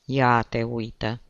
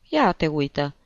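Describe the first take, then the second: First: Slow, drawn-out mild amazement; repeated wonder. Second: Brief, mildly amazed exclamation; mild wonder. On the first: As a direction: stretch it out in puzzled wonder. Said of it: "repetă părintele Cristofor". (mirare tărăgănată, reținută) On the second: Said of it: "se minună părintele Cristofor". (ușoară mirare) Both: A narrator's reading.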